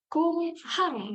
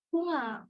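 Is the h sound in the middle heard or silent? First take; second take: heard; silent. First: The middle h sound is clearly pronounced. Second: The middle h sound is dropped entirely. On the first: "Betul, ada H ya soalnya" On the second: "Jadi H-nya nggak dibaca"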